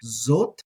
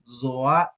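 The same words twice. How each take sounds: First: Zot said as one short syllable, aleph silent. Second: Zoat with a long o then a short a. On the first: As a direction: say Zot clipped, no second vowel. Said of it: "Zot is how a lot of people are gonna say this". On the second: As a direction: say Zoat as zo-at, not Zot. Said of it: "I'm gonna say Zoat". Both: Shown as a demonstration.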